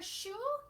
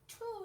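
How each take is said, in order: First: The word begins with an sh sound. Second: The word begins with a t sound. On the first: This is the real long-term target word. "if your chi- child wants to say shoe" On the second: This is an easier approximation for a child. "we can work on saying the t sound for the sh sound"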